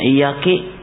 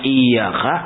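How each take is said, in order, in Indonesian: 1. Kata ini berakhir dengan vokal 'i'. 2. Kata ini berakhir dengan vokal 'a'. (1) "dibacanya iyaki" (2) "Yang harusnya iyaka"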